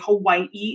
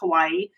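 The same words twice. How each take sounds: First: Hawaii is said the local island way. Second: Hawaii is said the usual mainland way. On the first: "they say Hawaii" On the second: "instead of Hawaii"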